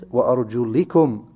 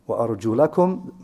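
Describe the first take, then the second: First: The vowel after the l is an i. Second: The vowel after the l is an a. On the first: The feet are to be wiped. "the second recitation" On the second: The feet are to be washed. "Is it read with a fatha"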